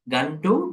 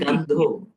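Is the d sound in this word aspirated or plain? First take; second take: plain; aspirated. First: The d is plain, without a puff of breath. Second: The d is aspirated, with a puff of breath. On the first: The word means eczema. The speaker calls it wrong. "it's not uh, D" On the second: The word means smell. The speaker calls it right. "it's do"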